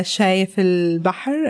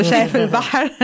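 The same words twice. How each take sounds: First: Said in the usual way. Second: شايف البحر in a full Arabic accent, fast and higher. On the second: Shown as a demonstration. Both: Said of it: "here's my Arabic accent".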